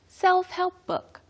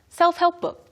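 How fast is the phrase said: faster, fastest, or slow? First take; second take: faster; fastest. First: The phrase is said at a quicker pace. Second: The phrase is said at a very quick pace. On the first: "A little bit faster" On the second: "The fastest"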